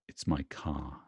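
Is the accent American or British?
British. The r at the end of car is silent.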